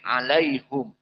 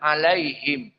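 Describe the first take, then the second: First: The last syllable is said with a 'u' vowel. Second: The last syllable is said with an 'i' vowel. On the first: This is the reading of Ya'qub. "tapi hum" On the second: This is the reading of most reciters. "tidak membaca him dengan kasroh"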